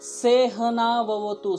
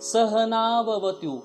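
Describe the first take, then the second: First: The first syllable is said as 'se'. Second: The first syllable is said as 'sa'. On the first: The speaker calls it wrong. "कुछ लोग बोलते हैं सेहनाववतु, सेहना नहीं है" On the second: The speaker calls it right. "स है"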